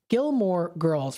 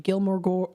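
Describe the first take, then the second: First: The second word sounds like 'girls'. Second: The second word sounds like 'ghouls'. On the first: The speaker calls it right. "My goodness" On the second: The speaker calls it wrong. "I always pronounce this wrong"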